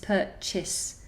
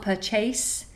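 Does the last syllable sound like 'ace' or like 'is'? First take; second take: is; ace. First: The last syllable sounds like 'is'. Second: The last syllable sounds like 'ace'. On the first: The speaker calls it right. "Imagine it's an is at the end" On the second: The speaker calls it wrong. "rather than ace. So it's not purchase"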